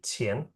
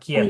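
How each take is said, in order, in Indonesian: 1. Kata "qian" diawali dengan bunyi seperti ch. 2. Kata "qian" diawali dengan bunyi k yang keras. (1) "tapi Qian" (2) "Q dibacanya pakai C. Jadi bacanya bukan"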